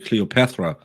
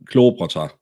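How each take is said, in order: First: The stress falls near the end of the word. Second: The stress falls at the beginning of the word. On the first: This is how the listener's group says it. "You put it in the end" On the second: This is how the speaker's group says it. "We we put the emphasis in the beginning of the word"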